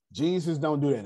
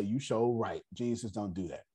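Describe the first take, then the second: First: Said in the usual way. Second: Low, soft self-talk; quietly agreeing in one's own head; imitated inner voice. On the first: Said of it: "from now on is say". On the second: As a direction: drop it down as if thinking to yourself. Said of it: "in his own head that say".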